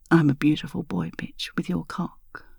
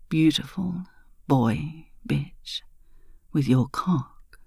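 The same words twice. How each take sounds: First: Soft porn voice. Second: Lower voice. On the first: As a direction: purr the words softly. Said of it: "in your soft porn voice". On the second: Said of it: "Your voice lower now". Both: A narrator's reading.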